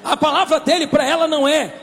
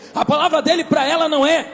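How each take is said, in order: Both takes have the same delivery.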